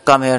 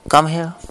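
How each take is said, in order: First: It is said flatly, without mood. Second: It is said in a romantic tone.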